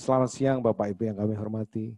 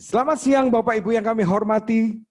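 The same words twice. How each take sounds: First: It is said in a flat, dull delivery. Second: It is said with lively, energetic delivery. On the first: Listeners feel sleepy. The speaker calls it wrong. "siang ngantuk aku gitu" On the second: Listeners become enthusiastic. The speaker calls it right. "otomatis orang akan lebih antusias"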